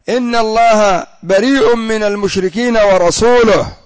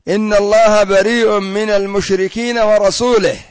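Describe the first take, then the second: First: The last word ends with a u-vowel. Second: The last word ends with an i-vowel. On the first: God and the Messenger both disavow the idolaters. The speaker calls it right. "إنما هو" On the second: God disavows the idolaters and also the Messenger. The speaker calls it wrong. "قرأ بعضهم"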